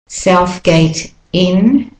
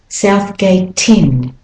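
First: The words are said separately. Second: The words run together smoothly.

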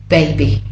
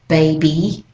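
First: The final vowel is clipped shorter. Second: The final vowel is drawn out longer. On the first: "for the other two accents... It's a bit shorter" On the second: "for Australian English, we tend to make it a bit longer"

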